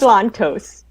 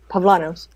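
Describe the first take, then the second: First: The T sound is pronounced in the name. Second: The T sound is dropped from the name.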